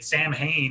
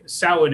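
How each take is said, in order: First: The word is pronounced exactly as it is spelled. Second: The word is not pronounced as it is spelled. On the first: The speaker calls it wrong. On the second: The speaker calls it right.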